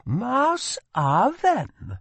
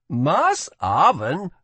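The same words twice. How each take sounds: First: High, slow, exasperated foreign exclamation; eye-rolling. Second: High, slow, louder amazed exclamation; as if she must be joking. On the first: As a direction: drag it out, fed up. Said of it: "rolling her eyes". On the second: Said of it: "let out an amazed laugh". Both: A narrator's reading.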